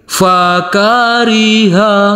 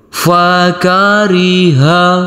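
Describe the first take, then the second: First: The pitch goes up across the word. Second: The pitch goes down across the word. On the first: "Yang kedua nada naik" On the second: "Yang ketiga nada turun"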